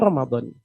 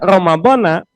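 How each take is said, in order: First: The word ends with an i vowel. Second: The word ends with an a vowel. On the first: "Yang paling fasih itu Ramadhani" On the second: "boleh, nggak apa-apa"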